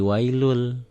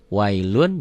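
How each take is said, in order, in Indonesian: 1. Kata ini diakhiri bunyi l dobel. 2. Kata ini diakhiri bunyi n. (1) "Wailun jadi wailul. L-nya double" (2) "jangan wailun karena diidghamkan"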